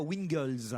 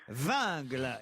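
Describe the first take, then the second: First: The name begins with a W sound. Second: The name begins with a V sound. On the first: The speaker calls it wrong. "et non pas Wingles" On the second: The speaker calls it right. "Vingle et non pas"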